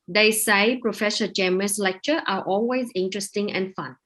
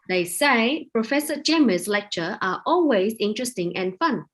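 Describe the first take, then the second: First: The voice is calm and steady in pitch. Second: The voice is raised and high-pitched. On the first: The speaker calls it right. "You just need to be calm. Just say" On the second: The speaker calls it wrong. "You don't have to like"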